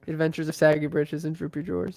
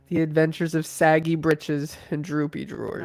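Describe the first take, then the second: First: It is said at a normal pace. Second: It is said slowly and clearly.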